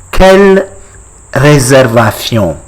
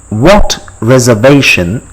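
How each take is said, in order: First: "Quelle réservation" in French with a Spanish-like th in the ending; French with Spanish accent. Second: Said in the usual way. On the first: Shown as a demonstration. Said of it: "I'm getting Spanish accent". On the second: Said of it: "how do you say".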